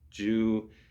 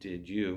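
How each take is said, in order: First: The two words are run together and reduced. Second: The two words are said separately and fully. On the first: This is how people casually say it. "we'll say" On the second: This is the formal, textbook form. "instead of saying"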